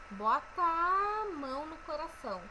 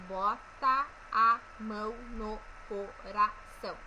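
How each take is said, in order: First: The two A vowels merge into one. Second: The two A vowels are said separately. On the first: The speaker calls it right. "Esse A, esses dois As, eles se juntam" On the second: The speaker calls it wrong. "Percebam que eu não falo um"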